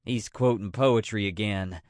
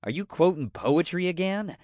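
First: Low-pitched statement with a falling end; reporting complaint. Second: Higher-pitched suspicious question. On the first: Dina turns toward Linda about Jean, low falling complaint. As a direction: report it as a settled, weary fact. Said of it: "She cocked her head toward Linda". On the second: Dina frowns at Jean quoting poetry, suspicious question. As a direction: challenge him with a questioning lift. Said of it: "Dina frowned suspiciously". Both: A narrator's reading.

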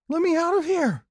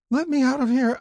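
First: Put-on high-pitched child's yell; panicked shout. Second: Put-on high, loud child's wail; frightened cry. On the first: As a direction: shout to be let out of a dark box. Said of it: "I shouted". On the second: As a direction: cry out like a trapped, terrified kid. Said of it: "then cried".

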